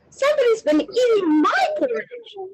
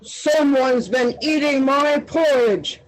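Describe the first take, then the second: First: It is gasped in Mommy Bear's voice. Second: It is growled in Daddy Bear's voice.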